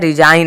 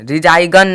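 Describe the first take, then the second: First: No g sound is pronounced before the n. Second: A hard g sound is pronounced before the n. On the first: The speaker calls it right. "रिजाइन आया है" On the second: The speaker calls it wrong. "रिजाई गन नहीं आया है"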